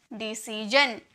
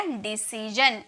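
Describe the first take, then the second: First: Said in the usual way. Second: decision drawn out slowly; slow model word. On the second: Shown as a demonstration. Teacher to class, slow careful decision. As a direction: say decision slowly, every syllable clear. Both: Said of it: "तो क्या हो गया?".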